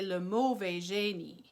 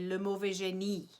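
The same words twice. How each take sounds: First: The stress is not on the final syllable. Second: The stress is on the final syllable. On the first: The speaker calls it wrong. "a French person would never say le mauvais génie" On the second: The speaker calls it right. "They would say le mauvais génie. It all goes to the last syllable"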